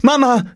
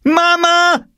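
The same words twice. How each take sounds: First: Put-on high, loud girl's call; urgent acted cry for Mum. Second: Put-on piercingly high, loud girl's scream; drawn-out outraged shriek. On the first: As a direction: call for your mother. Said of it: "rief sie". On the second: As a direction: yell for your mother. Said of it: "schrie Jule". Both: A narrator's reading.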